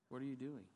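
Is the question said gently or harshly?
gently. The question sounds gentle and kind. "She was more gentle and kind"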